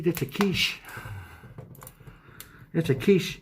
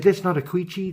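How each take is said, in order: First: "quiche" said properly as keesh, higher; correct pronunciation. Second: "quiche" said as kwitchy, imitating a friend; imitating friend's pronunciation. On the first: Shown as a demonstration. Correcting friend's spelling mistake, "quiche" as keesh. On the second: Mocking a friend who mispronounces quiche, says "quiche" as kwitchy. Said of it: "my friend Louis would call it a quiche".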